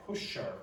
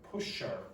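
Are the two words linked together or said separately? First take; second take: linked; linked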